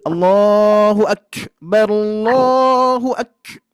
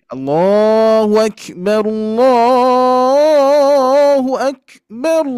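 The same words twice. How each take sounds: First: 「Allahu」をさらに高く大げさに; overdone takbir. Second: 「Allahu」を伸ばして上げる; normal takbir. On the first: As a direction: push Allahu higher and slower, overdone. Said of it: "itu terlalu berlebihan". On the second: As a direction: draw Allahu out slow and rising. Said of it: "Ah, biasa". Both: Shown as a demonstration.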